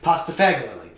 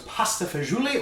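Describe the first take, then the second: First: It is said with an American pronunciation. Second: It is said with an Italian pronunciation.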